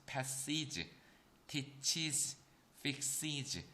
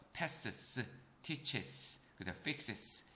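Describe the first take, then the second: First: "passes", "teaches", "fixes" with a drawn-out, voiced "-iz" ending; easier es endings. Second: "passes", "teaches", "fixes" ending in a bare hissed s, no added vowel; hard-to-say endings. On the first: Teacher showing students the easier form, "passes", "teaches", "fixes" said slowly with "-iz". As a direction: add a clear vowel before the final z in "passes", "teaches", "fixes". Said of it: "발음을 더 편하게 만들어줬다".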